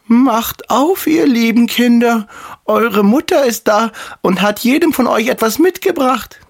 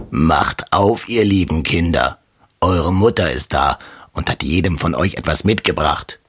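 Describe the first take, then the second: First: Wolf faking a very high mother's voice; high falsetto, coaxing the children; fine disguised voice. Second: Lightly voiced rough wolf posing as mother; a hint of a rough, lowered wolf. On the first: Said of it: "machte damit seine Stimme fein". (verstellte feine, hohe Wolfsstimme) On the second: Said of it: "hörten an der rauen Stimme". (leicht angedeutete raue Wolfsstimme) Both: A narrator's reading.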